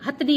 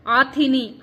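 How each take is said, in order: First: हथनी starting with h; correct form. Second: आथिनी with long aa and no h; wrong form. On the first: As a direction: say हथनी short, no i after थ. (सही उच्चारण, हथनी) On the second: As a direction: open on आ, add an i: आथिनी. (गलत उच्चारण, आथिनी) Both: Shown as a demonstration. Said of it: "हथनी होता है".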